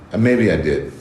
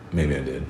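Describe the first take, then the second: First: Said in the usual way. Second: Dropped to a sly, much softer mutter; softer teasing repeat. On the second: Real, not acted. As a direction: repeat it to yourself, knowingly. Teasing repeat of his aside.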